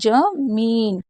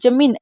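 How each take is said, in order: First: The second vowel is said long. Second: The second vowel is said short. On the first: The speaker calls it right. "इस तरीके से" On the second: The speaker calls it wrong. "अगर आप इसे जमीन ऐसे बोलेंगे तो गलत होगा"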